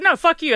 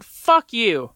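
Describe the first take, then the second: First: Higher, louder retold shout; escalated retort. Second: Retold angry shout; defiant retort. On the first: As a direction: top her, fling it back even harder. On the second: Retold defiant outburst at counselor.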